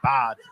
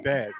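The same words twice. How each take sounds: First: The word's ending is fully and carefully pronounced. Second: The word's ending is clipped and casual. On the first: The person is trying to speak properly. "he literally tries to finish the whole word" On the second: This is how most people around here say it. "we just say bad"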